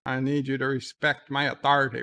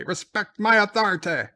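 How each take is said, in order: First: Said in the usual way. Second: Higher, louder shouted order; hammed-up yell of authority; mock shout. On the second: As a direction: bellow the command in mock outrage. Same line, shouted again.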